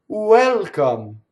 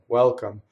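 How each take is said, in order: First: It starts with a clearly pronounced 'oo' sound. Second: It starts low with no separate 'oo' sound. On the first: This sounds like a strong foreign accent. The speaker calls it wrong. "if you're an Italian and you said the word welcome in English, you'd say" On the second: This is how a native English speaker says it. The speaker calls it right. "you're down there"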